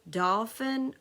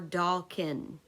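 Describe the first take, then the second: First: The middle consonant is an F sound. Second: The middle consonant is a K sound.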